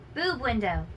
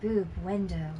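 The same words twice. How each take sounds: First: It is said in a plain, ordinary way. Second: It is said in a sultry, sexy way.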